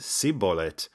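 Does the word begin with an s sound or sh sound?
s. The word begins with a plain s sound.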